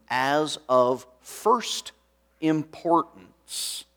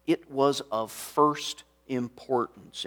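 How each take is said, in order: First: "as of first importance" drawn out slowly, word by word; slow emphasis. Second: Said in the usual way. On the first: Shown as a demonstration. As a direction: stretch "first importance" with heavy weight on each word. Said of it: "and these four words are important". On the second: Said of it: "as he said".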